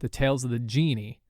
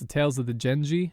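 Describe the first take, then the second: First: The last word is said like 'genie'. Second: The last word is said as 'Genji'. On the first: The speaker calls it wrong. "I just mispronounced the name of it so horribly" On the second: The speaker calls it right. "the answer was the Tales of the Genji"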